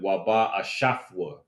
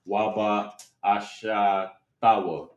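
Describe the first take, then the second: First: The final root consonants are joined together. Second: The final root consonants are split by a vowel. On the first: The speaker calls it right. "you connect those last two characters in that root word" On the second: The speaker calls it wrong. "you might pronounce it Waba Ashatawa"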